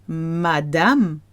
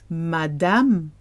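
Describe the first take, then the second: Both takes have the same delivery.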